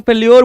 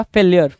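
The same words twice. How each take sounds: First: फेल्योर said with a rounded "-yor" ending; फेल्योर, ending in a round "o" before the r; alternative pronunciation. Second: फेलियर said with an "i-yer" ending; फेलियर, ending in an unrounded "-yer"; pronunciation variant. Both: Shown as a demonstration. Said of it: "या कुछ लोग फेल्योर बोलते हैं".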